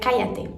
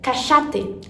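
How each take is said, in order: First: It is said the Mexican Spanish way. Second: It is said the Argentine Spanish way. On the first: People may take the speaker for a foreigner. "normalmente no espanhol mexicano seria cállate" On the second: It sounds like a local speaker. "Já no espanhol argentino fica cachate"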